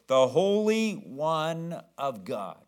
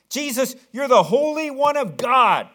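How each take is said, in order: First: Slow, each word of "The Holy One of God" stretched; drawn-out quote. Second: Much higher, much louder scream. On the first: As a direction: draw out "Holy" long and falling. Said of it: "That's what he says". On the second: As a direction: yell it at the top of your lungs. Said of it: "he screamed out at the top of his lungs". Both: Retold or imitated.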